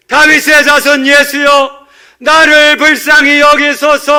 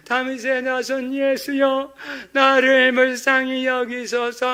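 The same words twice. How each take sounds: First: Full-force high shout, drawn out; all-out cry to be heard; hundredfold crying out. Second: High, slow, restrained plea; not really crying out. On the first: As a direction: bellow a desperate plea for mercy. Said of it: "이것보다도 백 배". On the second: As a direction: hold back a thin, drawn-out call. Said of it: "이런 거는 부르짖은 게 아니죠". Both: Shown as a demonstration.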